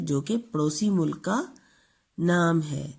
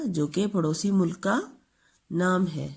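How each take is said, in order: Both takes have the same delivery.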